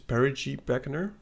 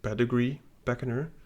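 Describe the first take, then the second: First: The first word is said like perigee. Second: The first word is said like pedigree. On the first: The speaker calls it right. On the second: The speaker calls it wrong. "I have been mispronouncing it all the time. I always said"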